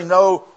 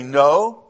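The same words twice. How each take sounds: First: A firmer, lifted NO; exclamation-point no. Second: Said in the usual way. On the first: Shown as a demonstration. Preacher hoping the translation marks it, emphatic NO. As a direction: say NO with a touch of exclamation. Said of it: "with an exclamation point after it". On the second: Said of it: "Your translation may simply say".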